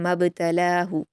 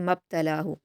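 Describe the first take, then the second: First: The b is released with a short echoing bounce. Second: The b is said plainly, without an echoing bounce. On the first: The speaker calls it right. "कलकला के साथ पढ़ेंगे" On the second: The speaker calls it wrong. "ये बिना कलकला के पढ़ना होगा और ये सही नहीं होगा"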